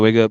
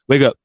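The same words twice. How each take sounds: First: It is said gently with little force. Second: It is said with more force and urgency. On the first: It is the weekend and there is no rush. "it might be different" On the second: It is a school day and waking up is required. "it's a little bit more intense"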